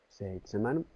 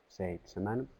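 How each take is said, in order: The two takes are said the same way.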